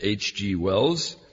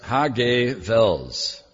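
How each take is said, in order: First: The name is pronounced with English sounds. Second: The name is pronounced with German sounds.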